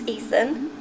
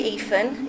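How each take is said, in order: First: The 'th' sound is clearly pronounced. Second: The 'th' sound is replaced by another sound. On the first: The speaker calls it right. "It's Ethan" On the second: The speaker calls it wrong. "I wouldn't say Ethan"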